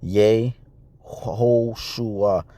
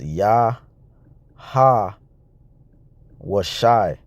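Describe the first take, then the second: First: The name begins with a short 'yeh' sound. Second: The name begins with an open 'yah' sound. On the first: The speaker calls it wrong. "you see it written here in the pronunciation" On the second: The speaker calls it right. "But really that's"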